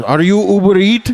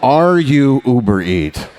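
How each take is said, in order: First: Put-on high, loud Indian accent question; mock Indian accent, rising; imitating an Indian courier's accent; Indian delivery guy. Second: Put-on slow, drawn-out Indian accent; slower mock Indian courier; Indian delivery guy. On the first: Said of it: "the guy looks at you and goes". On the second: Repeating the courier line, slower.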